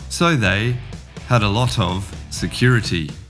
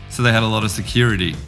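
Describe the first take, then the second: First: Some words run together with light reductions. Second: Words blend fast, with 'of' reduced to 'uh'. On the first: "To the garden" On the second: "And the jungle"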